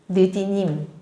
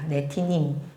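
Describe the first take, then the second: First: The name is said as 'neudinim' with soft consonants. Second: The name is said as 'netinim' with a t sound. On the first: This is the old translated form. "옛날에 번역했으니까 느디님이라고 되어 있는데" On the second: This is the original Hebrew sound. "원래 소리 나는 대로 하려면 네티님이 맞아요"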